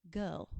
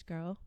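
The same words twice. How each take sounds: First: Put-on "Girl" without the r, British style; low British "Girl", vowel rounded. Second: Said in the usual way. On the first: Shown as a demonstration. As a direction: drop the r in "Girl". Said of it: "a bit of a inner British girl".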